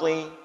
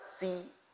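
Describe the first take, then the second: First: The s sound is heavy with a raised tongue. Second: The s sound is light and plain. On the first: The speaker calls it right. "huruf shad" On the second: The speaker calls it wrong. "Kita baca dengan si. Ini juga salah"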